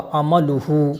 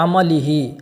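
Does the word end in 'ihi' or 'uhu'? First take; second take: uhu; ihi. First: The word ends with the vowels u-hu. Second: The word ends with the vowels i-hi. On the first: The speaker calls it right. "तो यहाँ पर ज़म्मा होगा अमलुहु" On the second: The speaker calls it wrong. "यहाँ ये खबीस पढ़ रहा है अमलिही"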